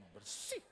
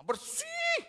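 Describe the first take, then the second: First: Said in the usual way. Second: High loud bersih; high emphatic protest; emphatic insistence. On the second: Retold or imitated. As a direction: squeal it out insisting. Insisting house is clean.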